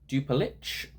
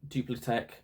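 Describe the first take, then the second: First: The name ends with a 'city' sound. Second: The name ends with a 'tech' sound. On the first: "Don't know if that's how you say it" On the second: "I think that's probably actually how you say it"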